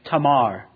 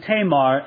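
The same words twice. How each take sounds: First: The vowels sound like 'ah'. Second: The vowels sound like 'ay'. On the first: The speaker calls it right. "A's are always pronounced, never A in most other languages, but ah" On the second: The speaker calls it wrong. "I've been saying Tamar, and I probably will. It's undoubtedly incorrect pronunciation"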